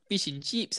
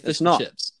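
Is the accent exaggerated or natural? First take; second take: exaggerated; natural. First: The accent is exaggerated in a mocking imitation. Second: The accent is the speaker's own natural one. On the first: This is how others mock the way they talk. The speaker calls it wrong. "They say, fish and chips, ha ha ha ha. That's not how we talk" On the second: This is how they really talk. The speaker calls it right. "We say fish and chips"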